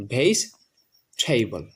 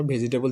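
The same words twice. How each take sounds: First: ভেজিটেবল slowly split, "veis... theibol"; correct pronunciation. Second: ভেজিটেবল run together as "ve-ji-te-bol"; common pronunciation. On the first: Teacher modelling the correct form, ভেজিটেবল as slow "veis... theibol". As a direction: drop the middle vowel of ভেজিটেবল, aspirate the t: "veis... theibol". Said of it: "এটা সঠিক উচ্চারণ হচ্ছে". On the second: Teacher quoting the common mistake, ভেজিটেবল as "ve-ji-te-bol". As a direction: keep the middle "i" in ভেজিটেবল: "ve-ji-te-bol". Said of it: "ভেজিটেবল যদি বলি". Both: Shown as a demonstration.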